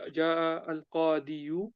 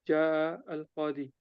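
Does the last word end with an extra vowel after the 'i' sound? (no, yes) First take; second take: yes; no. First: A short vowel is pronounced after the final 'i'. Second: The word ends plainly on the 'i' sound. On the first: The speaker calls it wrong. "we don't say" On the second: The speaker calls it right. "you say"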